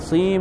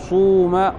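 First: The vowel after the first consonant is 'ee'. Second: The vowel after the first consonant is 'oo'. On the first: The speaker calls it right. "إخلاص الكسر" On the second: The speaker calls it wrong. "إخلاص الضم"

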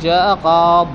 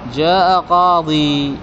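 First: The final word ends without a long vowel. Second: The final word ends with a long 'ee' vowel. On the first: "أصلها قاضي لكن يحذف الياء هنا يصار قاض" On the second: "يجوز أن ترجع الياء"

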